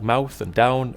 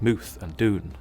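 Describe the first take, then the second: First: The vowel is the standard ow sound. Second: The vowel is a long oo sound.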